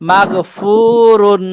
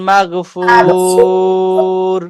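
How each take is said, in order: First: The word ends with a full -un ending. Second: The word stops short on a final r. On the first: The reading continues without stopping. "একবার সরাসরি উচ্চারণ করব আহ, না থেমে" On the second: The reading stops at this word. "আর একবার থামলে যেভাবে হবে সেভাবে পড়বো"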